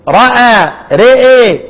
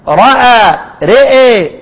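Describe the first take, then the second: No difference in how they are said.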